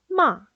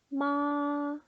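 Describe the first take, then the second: First: The pitch falls sharply, short and strong. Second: The pitch stays high, level and long. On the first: It means to scold. "짧고 굵고 세게 내리꽂으시면 돼요" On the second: It means mother. "높고 길게 뺍니다"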